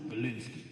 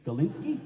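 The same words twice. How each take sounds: First: Low, settled GALINSKY; firm confirmation. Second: Higher, questioning GALINSKY; incredulous question. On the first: Bandmate confirming the name to the poet, final. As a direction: drop GALINSKY softly as a final answer. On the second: Poet doubting his bandmate's name, incredulous. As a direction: query GALINSKY with a rising, doubtful lift. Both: Retold or imitated.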